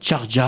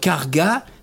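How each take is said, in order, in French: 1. Le mot commence par un son CH. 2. Le mot commence par un son K. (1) "ils vont dire Charja" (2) "Au lieu de dire Karga"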